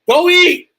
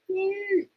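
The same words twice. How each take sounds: First: It is shouted loudly with force. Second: It is said softly without force.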